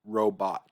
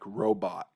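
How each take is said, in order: First: The final T becomes a glottal stop. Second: The final T becomes a glottal stop.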